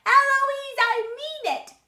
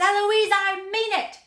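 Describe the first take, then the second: First: Very high, loud mimicking shout; child shouting back. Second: High, very loud shout; angry tutor shouting. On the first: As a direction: shout it back even higher, holding the name. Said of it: "And then I shout". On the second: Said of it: "And then he shouts". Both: A narrator's reading.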